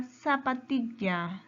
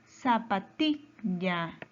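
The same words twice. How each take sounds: First: Said in the usual way. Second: "Zapatilla" stretched slowly, TI held and cut off; slow teacherly syllables in "Zapatilla", weight on TI; stress on TI. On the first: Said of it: "Su mayor fuerza de voz". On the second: Shown as a demonstration. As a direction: say "Zapatilla" as za-pa-TI... lla. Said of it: "fuerza de voz está en ti".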